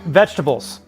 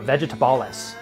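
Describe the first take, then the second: First: The word ends with the ordinary '-bles' sound. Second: The word ends with an extra '-bilis' sound. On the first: The ordinary pronunciation. The speaker calls it right. "That's not how they pronounce it" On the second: A joking, made-up local pronunciation. The speaker calls it wrong. "I think is how they pronounce it here in New Mexico"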